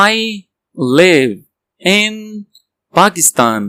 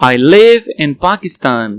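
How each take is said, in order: First: Each word alone. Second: Full sentence slowly; slow whole sentence. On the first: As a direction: chunk it slowly. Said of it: "word by word drill". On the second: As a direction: join it up slowly. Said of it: "whole again". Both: Shown as a demonstration.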